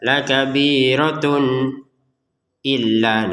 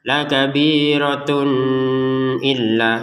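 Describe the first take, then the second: First: There is a pause between the words. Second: The words are joined with a nasal hum. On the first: "dibaca jeda ... juga salah" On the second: "didengungkan ... itu salah"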